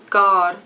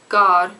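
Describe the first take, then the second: Both takes have the same delivery.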